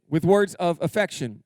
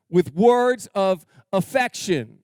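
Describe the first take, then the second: First: Said in the usual way. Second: Slow, weighty words of affection; drawn out for the men; slow emphasis. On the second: Shown as a demonstration. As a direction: lean on each word slowly.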